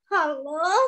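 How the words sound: It is said in a sad way. "Kalau sekarang ekspresinya sedih"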